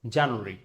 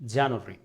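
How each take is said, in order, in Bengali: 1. এটা ব্রিটিশ উচ্চারণে বলা হয়েছে। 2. এটা ব্রিটিশ উচ্চারণে বলা হয়েছে।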